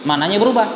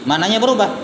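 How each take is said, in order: Both takes have the same delivery.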